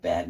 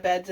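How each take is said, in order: First: Bed said cleanly without the s; corrected word. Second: Beds said with an extra s, a quick slip; "beds" said as plural by mistake; wrong word slip. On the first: Vlogger correcting her slip to viewers, saying "bed" without the s. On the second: Vlogger slips while explaining her morning robe, saying "beds" with an s. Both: Real, not acted. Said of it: "not beds".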